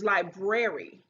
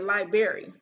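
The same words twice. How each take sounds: First: The middle is said with an r, 'brary'. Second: The middle sounds like the word 'bury'. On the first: The speaker calls it right. "but it's library" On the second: The speaker calls it wrong. "like they bur burying some lies"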